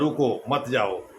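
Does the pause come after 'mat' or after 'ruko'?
after ruko. The pause comes after the word ruko. Stop; do not go. "यानी रुको जाने की ज़रूरत नहीं है"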